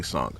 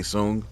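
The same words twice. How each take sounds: First: Sung said "sahng", open AH vowel; Sung pronounced as "sahng"; English-style pronunciation. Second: Tsung said "soong", with OO vowel; Japanese-style pronunciation. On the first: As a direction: say "Sung" to rhyme with "song". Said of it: "the English say Sung". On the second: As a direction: say "Tsung" with a long oo. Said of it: "The Japanese say Tsung". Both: Shown as a demonstration.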